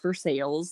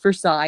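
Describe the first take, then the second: First: It is said in the local Indiana way. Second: It is said in the French-style way. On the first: This is how locals actually say it. "the way we say it in Indiana" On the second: This is how outsiders expect it to be said. "People think it's Versailles"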